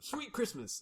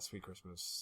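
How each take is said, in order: First: It is said with lively, excited energy. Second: It is said flatly, with bored indifference. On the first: This is how the catchphrase should sound. The speaker calls it right. "he didn't even say it with any sort of, uh, you know" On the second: The actor said the catchphrase without caring. The speaker calls it wrong. "sort of like, yeah, yeah, ... can we move on?"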